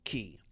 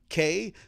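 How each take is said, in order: First: The word rhymes with 'see'. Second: The word rhymes with 'say'. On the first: The speaker calls it right. "There's no world where it is not pronounced key" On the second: The speaker calls it wrong. "call it K, so it rhymes with something else. Um, but that is not the right word"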